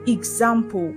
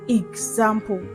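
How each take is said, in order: No difference in how they are said.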